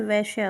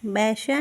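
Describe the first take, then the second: First: वैश्या said with a closed e, as veshya; the right वैश्या, ve-shya, dropping low; correct form. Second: वैश्या said with an open bai vowel, as baishya; the rejected वैश्या, an open ai; wrong form. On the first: Teacher giving the correct spelling, वैश्या said veshya. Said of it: "वैश्या होता है". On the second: Teacher marking the wrong spelling, वैश्या said baishya. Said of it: "वैश्या नहीं होता है". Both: Shown as a demonstration.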